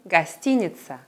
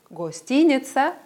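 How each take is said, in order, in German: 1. Der erste Vokal ist ein kurzes, schwaches a. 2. Der erste Vokal ist ein voller, klarer o-Laut. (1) "sondern Гостиница" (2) "Wir sagen also nicht Гостиница"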